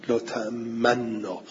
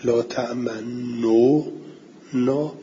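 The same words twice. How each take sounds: First: لا تأمنا said slowly with the two nuns merged and no damma sounded, only the lips rounded; لا تأمنا soft and slow, the damma only hinted; merged with ishmam. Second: لا تأمنو نا said slowly, a full u vowel on تأمنو and then نا; slow لا تأمنو نا with the damma fully pronounced; original form with damma. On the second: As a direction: sound out the damma in لا تأمنو نا clearly. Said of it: "یعنی این بوده". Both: Shown as a demonstration.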